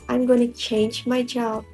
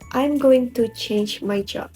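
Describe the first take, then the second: First: Going to is reduced to gonna. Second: Going to is said fully, as two words. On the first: "Native speakers say" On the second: "instead of"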